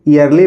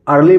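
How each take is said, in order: First: The word starts with an ee vowel. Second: The word starts with an er vowel. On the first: "ईयरली पढ़ेंगे" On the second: "अर्ली पढ़ेंगे"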